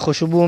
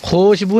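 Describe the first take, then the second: First: The first vowel is short, the waw silent. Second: The first vowel is stretched out long. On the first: The speaker calls it right. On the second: The speaker calls it wrong.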